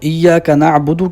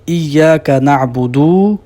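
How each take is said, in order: First: The vowels are held their normal length. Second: A vowel is stretched beyond its normal length. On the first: The speaker calls it right. "की बजाय" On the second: The speaker calls it wrong. "उससे भी बढ़ा देना"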